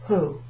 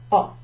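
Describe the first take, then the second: First: The word begins with an audible h sound. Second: The word begins directly with the vowel. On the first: The speaker calls it wrong. "You don't say ho" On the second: The speaker calls it right. "It's as if the H isn't there"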